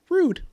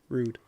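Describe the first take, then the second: First: It is said with high, sudden energy. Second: It is said with moderate, calmer energy. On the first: The speaker calls it wrong. "bring the energy from a zero to an eight" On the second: The speaker calls it right. "We can take it to a, a four"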